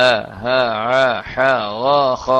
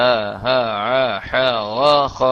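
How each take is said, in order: The two takes are said the same way.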